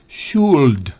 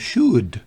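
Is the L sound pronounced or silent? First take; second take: pronounced; silent. First: The L sound is pronounced. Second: The L sound is silent. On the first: The speaker calls it wrong. "no es should" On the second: The speaker calls it right. "La L es muda en should"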